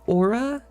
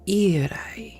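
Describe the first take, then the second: First: The name is said the plain English way. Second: The name is said the Icelandic way. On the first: "I just say Aura because I feel like that is the easiest" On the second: "my friends from the Nordic countries, particularly Iceland"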